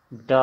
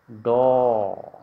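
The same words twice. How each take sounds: First: "ड" with an open a, "da"; Hindi pronunciation. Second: "डो" loud, with a long rounded o; Assamese pronunciation. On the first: Teacher introducing the Hindi letter, retroflex "da". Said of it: "Hindi का उच्चारण". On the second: Teacher answering for students, loud drawn-out Assamese "do". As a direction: stretch "डो" firmly as retroflex "do". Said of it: "क्या उच्चारण करेंगे". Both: Shown as a demonstration.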